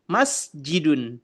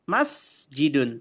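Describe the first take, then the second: No difference in how they are said.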